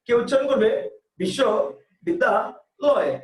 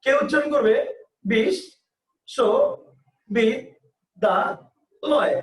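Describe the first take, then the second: First: বিশ্ববিদ্যালয় said slowly in three chunks; বিশ্ববিদ্যালয় in three unhurried beats; three-beat pronunciation. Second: বিশ্ববিদ্যালয় drawn out very slowly, syllable by syllable; বিশ্ববিদ্যালয় split into five slow separate beats. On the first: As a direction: chop বিশ্ববিদ্যালয় into three slow parts. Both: Shown as a demonstration. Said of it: "এক একজনের উচ্চারণ এক এক রকম".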